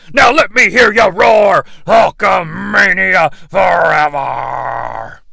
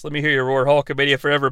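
First: Slow roaring wrestler shout; heroic rallying shout. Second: Said in the usual way. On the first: Acted. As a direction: roar it out to the crowd. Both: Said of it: "Hulk Hogan seems to have invented a new catchphrase".

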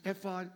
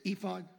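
First: "ephod" with a short e, EFF-od; corrected pronunciation. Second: "ephod" with a long e, EE-fod; familiar pronunciation. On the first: Preacher correcting himself on the Hebrew word, "ephod" said EFF-od. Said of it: "It's actually ephod". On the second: Preacher recalling how it was heard growing up, "ephod" said EE-fod. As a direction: say "ephod" starting with "ee". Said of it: "grew up hearing it as ephod". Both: Shown as a demonstration.

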